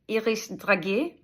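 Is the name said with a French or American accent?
French. It is said with a French-style accent.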